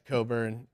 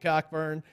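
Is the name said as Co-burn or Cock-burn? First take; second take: Co-burn; Cock-burn. First: The name begins with a plain 'co' sound. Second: The name begins with a clear 'cock' sound. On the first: The speaker calls it right. "it's Coburn" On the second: The speaker calls it wrong. "sorry if I pronounce it the way it's spelled"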